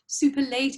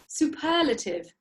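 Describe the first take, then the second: First: The word ends with a 'late' sound. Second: The word ends with a 'lay-tiv' sound. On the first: The speaker calls it wrong. "not superlate" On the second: The speaker calls it right.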